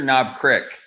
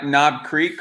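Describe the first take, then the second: First: The last word has a short 'i' vowel. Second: The last word has a long 'ee' vowel. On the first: "or Knob Crick?" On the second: "do you call it uh, Knob Creek"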